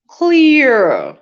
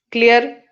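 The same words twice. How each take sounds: First: "Clear." said as clee-uh, louder, no r; correct clear. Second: "Clear?" with a rolled final r; mock wrong "Clear?" with the r sounded. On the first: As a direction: model "Clear." with a falling tone. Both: Shown as a demonstration.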